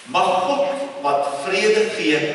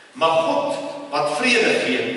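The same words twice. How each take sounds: Both takes have the same delivery.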